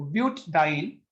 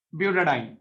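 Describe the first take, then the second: First: ब्यूटाडाइन said as "but-diene", with a small catch after ब्यूट; with a break after but. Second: ब्यूटाडाइन as "bu-ta-diene", one smooth flow; ब्यूटाडाइन flowing, no break. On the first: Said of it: "किस word को बोलने में बीच में एक हल्का सा break". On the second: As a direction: glide through ब्यूटाडाइन with the added a. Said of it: "कौन सा वर्ड बोलने में बड़ा आसान". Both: Shown as a demonstration.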